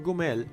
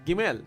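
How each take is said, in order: First: The word is voiced with its beauties vowel pattern. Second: The word is voiced with its camels vowel pattern. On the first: The word means beauties. "meaning beauties" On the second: The word means camels. "meaning camels"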